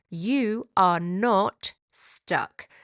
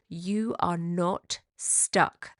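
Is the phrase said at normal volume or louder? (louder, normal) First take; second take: louder; normal. First: It is said noticeably louder than before. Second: It is said at normal speaking volume.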